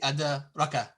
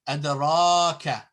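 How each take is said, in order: First: The marked vowel is clipped short. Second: The marked vowel is held long. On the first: The speaker calls it wrong. "you don't say" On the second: The speaker calls it right. "You have to extend it. lengthen it"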